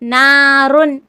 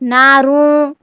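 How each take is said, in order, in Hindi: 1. अंतिम न की ध्वनि साफ़ बोली जाती है। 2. अंतिम न की ध्वनि छिपी रहती है, बोली नहीं जाती। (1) "हम जाहिर करके पढ़ेंगे" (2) "ऐसा नहीं पढ़ेंगे"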